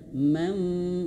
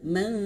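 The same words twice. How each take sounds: First: A nasal hum already shaped toward the f sound. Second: A plain nasal with no lip-to-teeth preparation. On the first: The speaker calls it right. "Harus nyentuh ayah bunda ya. Mau, nah gitu ya" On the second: The speaker calls it wrong. "Bukan hanya sekedar mau, mau. Nah, bibirnya nggak nyentuh"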